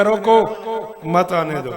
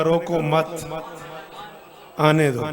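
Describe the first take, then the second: First: "रोको" raised and loud, pause, then "मत आने दो" together; pause after रोको. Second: "रोको मत" as one phrase, long pause, then "आने दो"; pause after मत. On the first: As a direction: order "रोको", stop, then forbid "मत आने दो". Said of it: "पहले मैंने कहा". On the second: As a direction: tie "मत" to "रोको", break, then permit "आने दो". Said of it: "अब मैंने कहा". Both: Shown as a demonstration.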